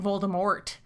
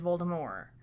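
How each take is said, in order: First: The name is said with an English pronunciation. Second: The name is said with a French pronunciation. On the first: This is how the name is said in the movie. "they're all saying Voldemort" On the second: The speaker's own reading from the book. "because of the French pronunciation"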